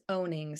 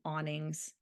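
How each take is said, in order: First: The first vowel sounds like 'oh'. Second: The first vowel sounds like 'aw'. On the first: The speaker calls it right. "It's ownings. ... say it correctly now that I know the right way" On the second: The speaker calls it wrong. "I've always called them awnings"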